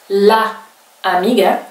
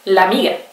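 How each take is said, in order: First: The two vowels are said separately. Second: The two vowels merge into one longer vowel.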